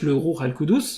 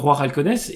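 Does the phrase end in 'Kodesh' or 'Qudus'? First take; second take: Qudus; Kodesh. First: It is pronounced 'Ruh al-Qudus', ending in 'Qudus'. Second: It is pronounced 'Roi al-Kodesh', ending in 'Kodesh'. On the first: This is the term as it is usually said. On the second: Someone else said it this way.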